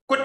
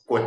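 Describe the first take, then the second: First: High, short forceful tone on 骨; 骨 as a short high punch; eighth tone. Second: Low, short checked tone on 骨; 骨 as a short low syllable; fourth tone. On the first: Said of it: "啊，罗筋骨 就是第八声". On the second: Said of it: "马骨的骨就是第四声". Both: Shown as a demonstration.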